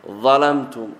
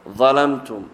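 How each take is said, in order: No difference in how they are said.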